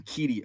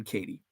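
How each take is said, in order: First: "Keaty" with an ee in the first syllable; mispronounced name. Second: "Katie" with an ay in the first syllable; corrected name. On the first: Host owning up to a misread name, "Keaty" with an ee. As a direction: say "Keaty" to rhyme with meaty. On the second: Host correcting a coach's name, "Katie" with a long ay. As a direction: say "Katie" to rhyme with weighty. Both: Shown as a demonstration. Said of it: "I called him Keaty at first".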